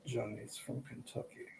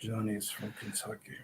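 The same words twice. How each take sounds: First: Slow, very soft Depp-like British-Kentucky lilt; British-Kentucky accent, hushed. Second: Slow, very soft Kentucky-British lilt, a bit lower; British-Kentucky accent, low and hushed; Kentucky British accent, again. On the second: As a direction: murmur it in a lilting mixed accent. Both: Retold or imitated. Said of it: "Kentucky British accent".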